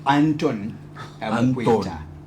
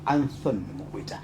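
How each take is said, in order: First: The name is said in a Zambian accent. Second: The name is said in a British accent. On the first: "not the, the Zambian way" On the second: "a London, a British way"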